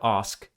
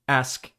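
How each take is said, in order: First: The vowel is said with a British accent. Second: The vowel is said with a Canadian accent. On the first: The speaker calls it right. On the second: The speaker calls it wrong.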